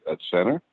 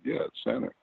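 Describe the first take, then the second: First: Incredulous question. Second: Said in the usual way. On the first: Retold or imitated. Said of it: "you looked at me and said". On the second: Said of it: "I said".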